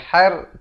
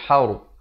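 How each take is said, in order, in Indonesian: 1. Suku kata itu diucapkan tipis dan ringan. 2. Suku kata itu diucapkan tebal dan berat. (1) "jangan baca har" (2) "haur jadi tebal"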